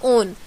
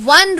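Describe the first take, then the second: First: The word begins with a plain 'o' vowel. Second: The word begins with a 'w' sound. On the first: The speaker calls it wrong. "अगर हम लोग इसे ओ की तरह pronounce करेंगे तो इसे कहा जाएगा ओन" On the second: The speaker calls it right. "लेकिन हम लोग इसमें डब्ल्यू की तरह प्रोनाउंस करते हैं"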